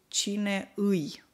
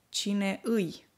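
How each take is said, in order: No difference in how they are said.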